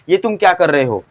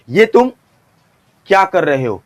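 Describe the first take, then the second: First: The whole line is said without any pause. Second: There is a pause after the first two words. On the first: No tension is built up. "इसी dialogue को एक बार में बोलोगे" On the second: It builds tension about what comes next. "ये तुम, इसके बाद यहां पे आपको पॉज लेना है"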